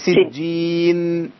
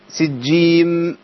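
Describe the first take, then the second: First: The word ends in an n sound, lips open. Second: The word ends in an m sound, lips closed. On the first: The speaker calls it right. "هي سجين" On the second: The speaker calls it wrong. "لو عملت مخرج النون وأنا بقفل الشفتين هقول سجيم"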